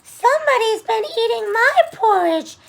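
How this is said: It is said in a high, squeaky voice.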